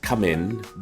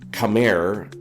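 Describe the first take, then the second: First: The word ends with an N sound. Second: The word ends with an R-like sound.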